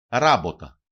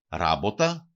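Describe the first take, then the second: First: Ράποτα stressed on first syllable, falling; antepenultimate stress. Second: Ράποτα stressed on first syllable, rising at the end; antepenultimate stress. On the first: Teacher showing the stress rule to learners, first-syllable stress, falling. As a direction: hit the first syllable of ράποτα loudly, then drop. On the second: Teacher repeating the example for learners, first-syllable stress, rising. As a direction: stress the start of Ράποτα and lift the ending. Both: Shown as a demonstration. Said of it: "προπαραλίγουσα συλλαβή".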